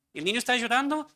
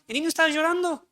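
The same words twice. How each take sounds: First: Said in the usual way. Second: Mock-alarmed repeat, pitched higher and louder. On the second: Pastor mimics parents fretting over crying child, high mock alarm. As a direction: echo the panicked parent, voice jumping up high.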